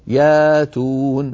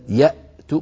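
First: The glottal stop is replaced by a long vowel. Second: A glottal stop closes the first syllable. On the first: This is the lightened form many tribes used. "يقولون ياتون بدل يأتون" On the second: This is the full form with the heavy hamza. "بدل يأتون"

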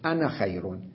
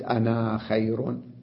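First: The final vowel of the first word is short. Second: The final vowel of the first word is long. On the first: The speaker calls it right. "لاحظوا أنا خير" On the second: The speaker calls it wrong. "ما قلت أنا خير"

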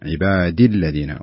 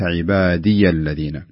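First: The vowel after the d is short. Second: The vowel after the d is long. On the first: The speaker calls it right. "عبادي الذين وليس" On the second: The speaker calls it wrong. "وليس عبادي الذين"

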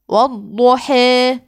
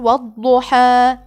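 First: The final long vowel leans strongly toward e. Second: The final long vowel is a fully open a. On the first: "الإمالة أن أقول والضحى" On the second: "الفتح هو في قراءة حفص أن أقول والضحى"

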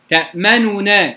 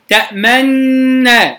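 First: Both n sounds are separate with a full u vowel. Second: The two n sounds merge into one doubled n. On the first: "تأمننا ضمة كاملة" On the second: "الإدغام المحض تأمننا"

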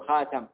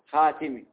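First: The vowel after the t is a. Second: The vowel after the t is i. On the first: He is the last of the prophets. "وقرأ عاصم بفتحها" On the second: He is the one who seals the prophets. "قرأ الأكثرون بكسر التاء"

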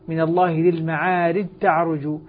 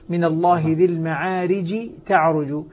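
Both takes have the same delivery.

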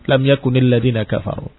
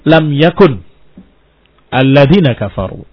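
First: Yakun runs on with an added i vowel. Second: Yakun is cut off before the next word. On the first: "terdengar kasrah lam yakuni" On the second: "kalau diputus-putus"

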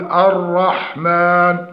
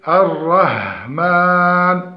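First: The long vowel is held for two counts. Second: The long vowel is stretched beyond two counts. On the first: The speaker calls it right. "والأصل التقيد بحركتين وعدم الزيادة" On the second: The speaker calls it wrong. "والزيادة المد في الألف حال الوصل ... وهذا خطأ"

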